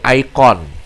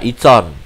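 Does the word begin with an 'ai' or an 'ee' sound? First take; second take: ai; ee. First: It is said the English way, starting with 'ai'. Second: It is said the Indonesian way, starting with 'ee'.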